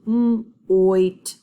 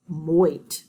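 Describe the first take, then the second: First: "Mm, oit" said as separate sound chunks. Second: Said in the usual way. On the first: Shown as a demonstration. Teacher sounds out a word with the class. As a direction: stretch "Mm" then "oit". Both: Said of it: "sound it out with me".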